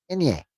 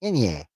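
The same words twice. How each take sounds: First: "Inye" said higher and shorter, as in-yih; a second try at "Inye", higher; tried pronunciation. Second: "Inye" sounded out as nasal in-yeh, falling; first try at "Inye"; careful pronunciation. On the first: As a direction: pitch "Inye" up, quick and clipped. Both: Shown as a demonstration. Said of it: "N pronounced".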